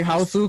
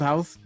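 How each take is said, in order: First: The word ends with an added u vowel. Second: The word ends in a plain s sound. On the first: The Japanese film. "I say Houseu because it's the Japanese" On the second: The American eighties horror film. "I don't say House because there's an eighties movie called House"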